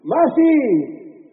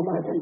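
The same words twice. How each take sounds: First: High drawn-out shout of MASI; grito. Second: Said in the usual way. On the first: Shown as a demonstration. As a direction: belt out MASI as a crowd cue. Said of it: "voy a gritar". (grito agudo y alargado) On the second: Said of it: "no, "Masi".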